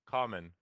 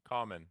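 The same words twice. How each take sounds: Both takes have the same delivery.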